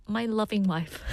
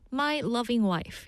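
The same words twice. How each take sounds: First: Said in the usual way. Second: Drawn out slowly, each word weighted; slow ominous reveal. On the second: Pretend. Host teasing listeners, reading the caller ID slowly. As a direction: spell out "My loving wife." slowly like bad news.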